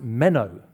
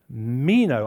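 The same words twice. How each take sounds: First: "meno" with a short e, MEN-oh; corrected pronunciation. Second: "meno" with a long ee, MEE-no; first guess at pronunciation. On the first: Preacher correcting his Greek, "meno" said as MEN-oh. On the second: Preacher reading out a Greek word, "meno" said as MEE-no. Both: Shown as a demonstration. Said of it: "I think it's pronounced meno".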